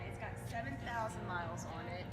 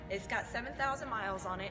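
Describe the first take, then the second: First: It is said quietly. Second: It is said loudly.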